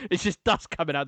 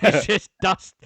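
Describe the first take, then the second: First: Said in the usual way. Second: Laughing it out, slow and louder. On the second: Real, not acted. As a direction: giggle through the words, drawn out. Laughing at dusty joke.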